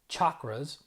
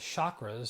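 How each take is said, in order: First: The word begins with a ch sound. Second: The word begins with an sh sound. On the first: The speaker calls it right. "in Sanskrit there's no sh, it's ch" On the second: The speaker calls it wrong. "I was pronouncing them as chakras, so I wasn't saying it right"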